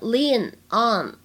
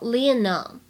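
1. 这两个词是分开读的。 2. 这两个词是连在一起读的。

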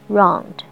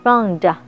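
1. 这个词干净利落地结束在d上。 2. 最后的d后面有一个多余的元音。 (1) "干净利索的给它结束了round" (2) "北京腔round 不对"

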